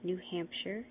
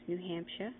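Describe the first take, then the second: First: The final R sound is pronounced. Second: The final R sound is dropped.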